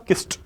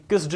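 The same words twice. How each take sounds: First: "किस्ट" with a clear final t; teacher gives "किस्ट" ending in a crisp t. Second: "किस्ड" said with a final d, the wrong way; teacher shows "किस्ड" ending in d. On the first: Teacher correcting the class, "किस्ट" said with a final t. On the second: Teacher demonstrating the wrong d ending on "किस्ड". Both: Shown as a demonstration. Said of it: "ये किस्ड नहीं होगा".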